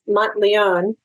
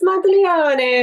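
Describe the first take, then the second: First: The name is said with American pronunciation. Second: The name is said with Italian pronunciation. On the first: This is the Americanized family version. "my husband pronounces it Mont Monteleone" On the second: This is how people in Italy say it. "all the Italians were, oh, Miss Monteleone"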